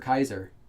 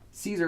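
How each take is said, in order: First: The name begins with a K sound. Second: The name begins with an S sound. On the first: "the character was pronounced as Kaiser" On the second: "I thought it was always Caesar"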